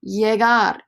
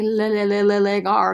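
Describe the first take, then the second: First: The word begins with a y sound. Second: The word begins with an l sound. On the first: The speaker calls it right. "Remember, double L, make the y sound" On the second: The speaker calls it wrong. "Don't say llegar"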